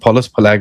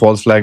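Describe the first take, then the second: First: False is said with an extra vowel, two syllables. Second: False is said as one syllable, standard form. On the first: This is the speaker's own habitual pronunciation. "Pardon my pronunciation, मैं फॉलस flag बोलता हूँ" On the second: This is the usual pronunciation the speaker avoids. "मैं उसको फॉल्स flag नहीं बोलता"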